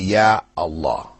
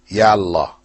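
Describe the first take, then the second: First: The opening vowel of Allah is kept after ya. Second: The opening vowel of Allah is dropped after ya. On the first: The speaker calls it right. "you still say" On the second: The speaker calls it wrong. "You don't say"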